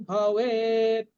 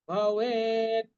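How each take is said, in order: The two takes are said the same way.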